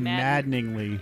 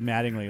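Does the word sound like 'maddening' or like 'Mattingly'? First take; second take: maddening; Mattingly. First: The word sounds like maddening plus ly. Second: The word sounds like the surname Mattingly. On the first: The speaker calls it right. "This should be maddeningly" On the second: The speaker calls it wrong. "He said maddeningly, like Don Mattingly"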